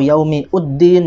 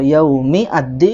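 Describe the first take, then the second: First: An extra u vowel is heard before din. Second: An extra a vowel is heard before din. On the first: "atau yaumi uddin ya, tidak" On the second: "bukan uh, yaumi ad-din"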